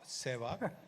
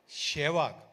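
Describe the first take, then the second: First: The name begins with an s sound. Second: The name begins with a sh sound. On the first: This is the correct pronunciation. The speaker calls it right. "not not Sevak" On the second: This is how a teammate mispronounced it. The speaker calls it wrong. "The pronunciation was always Shevak"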